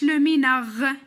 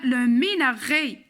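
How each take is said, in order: First: "لو ميناغ" cut off on the r, no é after it; wrong ending. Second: "لو ميناغي" with a clear final é after the r; correct é ending. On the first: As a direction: end "لو ميناغ" on a raspy French r. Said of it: "ما قلناش". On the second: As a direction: finish "لو ميناغي" on a held closed é. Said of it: "قلنا". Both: Shown as a demonstration.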